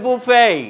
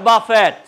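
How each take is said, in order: First: It ends in an ay sound with silent t. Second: It ends with a pronounced t sound. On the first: The speaker calls it right. "এই ভদ্রলোকের আসল নাম হচ্ছে বুফে" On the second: The speaker calls it wrong. "Not বাফেট"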